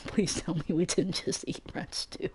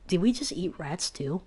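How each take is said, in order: First: Softly laughing through the words, breathy and quiet. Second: Said in the usual way. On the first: Real, not acted. Narrator laughing in disbelief about eating rats. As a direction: half-whisper it while cracking up.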